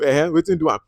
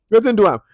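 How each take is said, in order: First: Said in the usual way. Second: "Wetin" punched higher and louder; emphatic echo. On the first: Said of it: "the Yabi say". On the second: Real, not acted. Reviewer repeats the Pidgin retort, louder. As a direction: fire it back with emphasis. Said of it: "echo louder".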